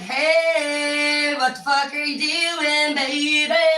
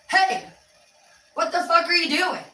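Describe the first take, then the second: First: It sounds happy and affectionate. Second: It sounds angry and annoyed.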